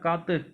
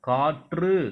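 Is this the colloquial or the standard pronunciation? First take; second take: colloquial; standard. First: It is said in the everyday spoken form. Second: It is said in the formal written form. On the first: The speaker calls it wrong. "காத்துன்னு சொல்லாமல்" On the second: The speaker calls it right. "காற்று அப்படின்னு சொல்லணும்"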